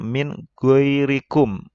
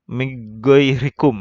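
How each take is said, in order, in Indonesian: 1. Bunyi n diucapkan dengan jelas sebelum kata berikutnya. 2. Bunyi n kabur menyatu ke kata berikutnya. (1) "dibacanya min goirikum" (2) "didengungkan ... atau disamarkan"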